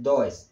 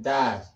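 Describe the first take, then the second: First: "does" read as written, "do-es" with an o and an e; "does" mispronounced as "doh-es"; wrong pronunciation. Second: "does" said as "duz", short u and a z ending; "does" rhymes with "buzz"; correct pronunciation. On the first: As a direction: spell out "does" letter by letter as a mistake. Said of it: "no es does". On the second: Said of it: "La pronunciación es does". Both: Shown as a demonstration.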